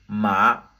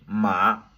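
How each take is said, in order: Both takes have the same delivery.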